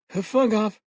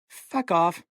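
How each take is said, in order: First: The words are muffled, as through food. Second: The words are spoken clearly.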